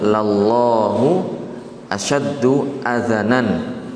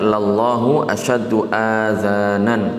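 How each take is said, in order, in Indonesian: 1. Vokal pada kata terakhir pendek. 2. Vokal pada kata terakhir panjang. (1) "dengan di fathah hamzah dan zalnya" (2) "bukan dengan dibaca panjang"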